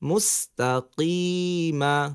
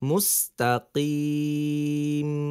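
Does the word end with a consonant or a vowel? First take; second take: vowel; consonant. First: The word ends with a final short a vowel. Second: The word ends on the consonant m. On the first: The reading continues without stopping. "মিম জবর মা মুস্তাকিমা" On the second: The reader stops at the end of the verse. "অক্ফ করলে মুস্তাকিম"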